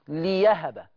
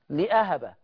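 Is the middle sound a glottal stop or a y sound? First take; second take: y sound; glottal stop. First: The middle consonant is a y sound. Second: The middle consonant is a glottal stop.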